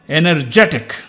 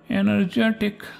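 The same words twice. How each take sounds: First: It is said with lively energy. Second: It is said flatly, without energy.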